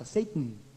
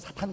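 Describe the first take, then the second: First: It is said with an English pronunciation. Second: It is said with a Korean pronunciation. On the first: The speaker calls it right. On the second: The speaker calls it wrong.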